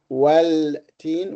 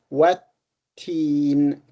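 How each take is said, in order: First: An L sound is heard before teen. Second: The L merges into a doubled T sound. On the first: The speaker calls it wrong. "we do not say well teen" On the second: The speaker calls it right. "we say what what teen"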